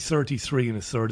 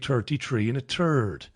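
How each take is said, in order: First: It is said with a full th sound. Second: It is said with an Irish t-like th.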